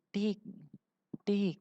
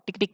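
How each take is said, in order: First: The two taps are separated by a pause. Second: The two taps come quickly with no gap. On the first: Two separate single clicks. The speaker calls it wrong. "Bukan klik dua kali, ... Bukan seperti itu" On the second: A quick double click. The speaker calls it right. "Klik dua kali cepat"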